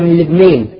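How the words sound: The final long vowel leans toward an e sound. "يميلوا بطريقة لهجتهم العامية"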